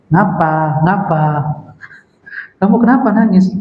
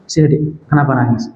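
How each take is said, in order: First: Mock unsympathetic questioning; uncaring husband. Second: Tender coaxing. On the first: Rough husband questioning his crying wife, mildly brusque. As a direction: act out a husband with no compassion. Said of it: "ini ciri-ciri suami kasar ya". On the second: Acted. Loving husband to his crying wife, tender. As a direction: gently draw a crying wife close. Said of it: "Panggilan kasih sayang".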